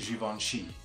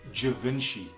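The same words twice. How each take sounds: First: The name is pronounced the French way. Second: The name is pronounced the English way. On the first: The speaker calls it right. "because it's a French name, it is actually" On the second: The speaker calls it wrong. "referring to it as"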